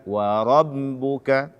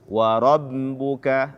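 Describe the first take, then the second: Both takes have the same delivery.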